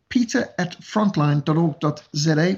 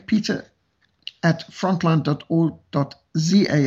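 First: Z is said the non-American way, as zed. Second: Z is said the American way, as zee.

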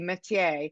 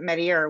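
First: The name is pronounced the French way. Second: The name is pronounced in an anglicized way. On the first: "it's pronounced like the French way would be Metier" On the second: "but of course the residents pronounce it Metier"

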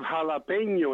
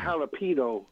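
First: The consonant before the last vowel is an ny sound. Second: The consonant before the last vowel is a plain n. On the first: The speaker calls it right. "you have jalapeno" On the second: The speaker calls it wrong. "not jalapeno"

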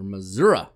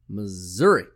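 First: It is said in the local Missouri pronunciation. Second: It is said in the general, non-local pronunciation.

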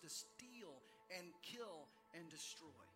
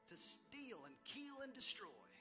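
First: It is spoken in a Texas accent. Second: It is spoken in a neutral accent.

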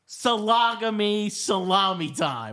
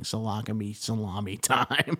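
First: It is said louder and more clearly. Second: It is muttered quietly under the breath. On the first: "I'm going to amplify it" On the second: "slip in these little things under your breath"

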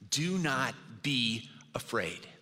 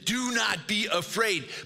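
First: It is said in a gentle, caring tone. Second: It is said in a harsh, scolding tone.

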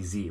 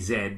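First: The letter is pronounced as zee. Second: The letter is pronounced as zed. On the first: The speaker calls it right. "but it's probably Z" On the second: The speaker calls it wrong. "I'm going to say Zed"

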